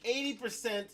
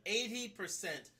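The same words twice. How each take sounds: First: EIGHTY PERCENT punched high and loud; loud, high emphasis on EIGHTY PERCENT; emphatic stress. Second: EIGHTY PERCENT slow and high; slow, raised stress on EIGHTY PERCENT; emphatic repeat. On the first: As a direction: hit "eighty percent" hard, pitched way up. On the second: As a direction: drag out "eighty percent" for weight. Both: Real, not acted. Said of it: "I repeat".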